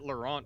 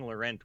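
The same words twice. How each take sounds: First: The name is pronounced with a French accent. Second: The name is pronounced with an English accent. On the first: It matches how the owner says his own name. "when he says his own name" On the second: It is the everyday way of naming the card. "when I'm calling this card by its name"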